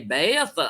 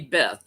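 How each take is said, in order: First: The name is drawn out into two syllables. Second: The name is one short plain syllable. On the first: "in the South, they always say Beatha" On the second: "they never say Beth"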